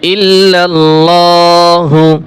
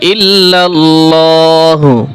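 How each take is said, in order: The two takes are said the same way.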